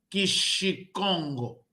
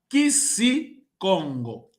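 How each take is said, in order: First: The second syllable starts with a sh sound. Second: The second syllable starts with an s sound. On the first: The speaker calls it wrong. "Não, não é Kishikongo" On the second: The speaker calls it right. "Mas sim Kisikongo"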